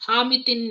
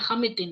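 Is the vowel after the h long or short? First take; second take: long; short. First: The vowel after the h is long. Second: The vowel after the h is short. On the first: The speaker calls it wrong. "हामितिन नहीं है" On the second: The speaker calls it right. "Short ए after H"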